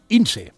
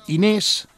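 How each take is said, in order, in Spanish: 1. El nombre se dice como Ince. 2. El nombre se dice como Inés. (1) "va dir Ince" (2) "en lloc de pronunciar Inés"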